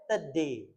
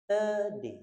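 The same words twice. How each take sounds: First: Today ringan ala sehari-hari; today dibaca santai seperti penutur asli; everyday today. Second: Today ringan ala penutur asli; Today dibaca santai; everyday today. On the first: (today versi sehari-hari) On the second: (Today versi sehari-hari) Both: Shown as a demonstration. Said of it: "secara sehari-hari dia bacanya".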